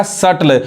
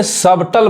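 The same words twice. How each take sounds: First: सटल with no b, "sut-l"; silent B. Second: सबटल with the b sounded; सबटल misread with audible b; wrong pronunciation. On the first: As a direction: say सटल dropping the b. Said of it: "बी silent है". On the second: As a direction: say सबटल as "sub-tul". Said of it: "बहुत लोग गलत पढ़ते हैं". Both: Shown as a demonstration.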